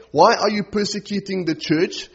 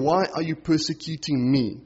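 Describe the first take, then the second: First: "church" held up as the rejected version, ending on a rise; contrast on "church". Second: "me" set against the other version, ending on a fall; personal stress on "me". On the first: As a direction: lift "church" at the end, unfinished contrast. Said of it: "He's not saying". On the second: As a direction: land firmly on "me", dropping to a close. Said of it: "Jesus is making this personal". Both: Retold or imitated.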